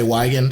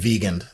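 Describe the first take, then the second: First: The name begins with a W sound. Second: The name begins with a V sound. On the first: The speaker calls it wrong. "Most people say Weigand here" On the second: The speaker calls it right. "I think vegan"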